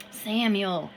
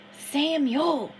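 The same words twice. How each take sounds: First: A mild, half-raised call of the name; loud hiss. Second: Higher, louder call of Samuel. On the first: Harrison calls Samuel from the river, mildly raised. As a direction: call Samuel with a touch more force. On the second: Harrison calls Samuel from the river, loud and high. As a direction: call the name out across the water, loud and high. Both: Acted. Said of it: "he hissed loudly".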